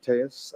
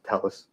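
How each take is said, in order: First: The surname is said like 'Tejas'. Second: The surname is said like 'Tellis'. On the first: "he pronounced it Tejas" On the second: "also pronounced Tellis"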